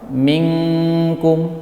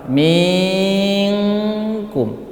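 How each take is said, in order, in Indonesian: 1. Bunyi nun dibaca pendek sebelum k. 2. Bunyi nun dipanjangkan sebelum k. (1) "setelah menyempurnakan huruf nun baru kita ikhfakan" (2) "Misalnya ming, baru diikhfakan, minkum, itu salah"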